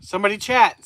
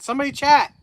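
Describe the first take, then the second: First: Loud call for chat. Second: Louder, higher plea for chat; high pleading call. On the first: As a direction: call out to the viewers. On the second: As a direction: beg the viewers to type. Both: Real, not acted. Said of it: "the chat stopped".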